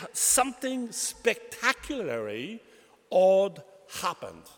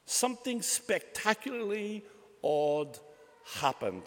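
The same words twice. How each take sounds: First: Slow, with odd punched loud; emphatic stress. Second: Said in the usual way. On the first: Acted. Preacher hammering the point to the congregation, slow and emphatic. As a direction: lean hard on the word odd, drawn out.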